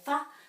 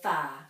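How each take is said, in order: First: The vowel is short. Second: The vowel is long. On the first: The speaker calls it wrong. "we just don't say fa" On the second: The speaker calls it right. "we say fa, because it's a bit longer"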